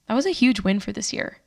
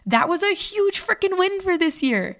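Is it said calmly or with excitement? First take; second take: calmly; excitement. First: It is said calmly, with less excitement. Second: It is said with much more excitement.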